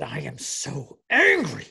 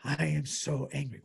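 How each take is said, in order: First: Mock angry outburst. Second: Softer, understated replay of anger; subdued retold anger. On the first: Husband imitating his wife leaving Mass, mock fury. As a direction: imitate clenched-fist fury, bursting on the last word. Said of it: "clenched her little fists". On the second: Husband recapping his wife's outburst, restrained mock anger. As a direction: repeat the angry quote with the force held back. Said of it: "that is shocking conduct from her".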